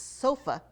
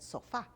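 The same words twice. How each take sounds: First: It is said with an English pronunciation. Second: It is said with a Spanish pronunciation. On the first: The speaker calls it right. "it's sofa in English" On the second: The speaker calls it wrong. "but I said sofa"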